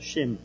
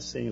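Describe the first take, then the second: First: The name begins with a sh sound. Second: The name begins with a plain s sound. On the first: This is how it is said in Hebrew. The speaker calls it right. "lá é Shem" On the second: This is the usual Brazilian way to say it. The speaker calls it wrong. "Claro que não é Sem"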